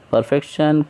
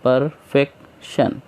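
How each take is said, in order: First: Said in the usual way. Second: perfection in three slow pieces; teacher counting out the three syllables of perfection. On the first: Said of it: "syllable कैसा है इसमें?". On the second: Shown as a demonstration. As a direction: say perfection as पर, फेक, शन with gaps. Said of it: "इस तरीके से".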